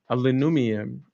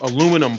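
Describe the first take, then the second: First: It is said in a put-on, fancy accent. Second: It is said in a plain, everyday accent.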